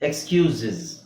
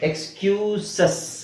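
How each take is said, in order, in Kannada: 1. ಅಂತ್ಯ 'iz' ತರ ಉಚ್ಚಾರ ಆಗುತ್ತೆ. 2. ಅಂತ್ಯ 'ess' ತರ ಉಚ್ಚಾರ ಆಗುತ್ತೆ. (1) "ನಾನು ಐ ಝೆಡ್ ಹಾಕಿ ಹೇಳ್ತೀನಿ" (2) "ಇದು ಎಕ್ಸ್ಕ್ಯೂಸಸ್ ಅಲ್ಲ"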